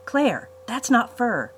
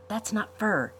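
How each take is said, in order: First: Slow and louder, leaning on fur; drawn-out, urgent repeat; insistent repeat. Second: Said in the usual way. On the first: A narrator's reading. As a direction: press Claire to notice.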